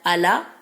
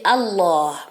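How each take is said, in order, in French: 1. Le son l est léger et fin. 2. Le son l est grave et lourd. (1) "On dit pas" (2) "il est emphatique. Ça veut dire qu'il est grave"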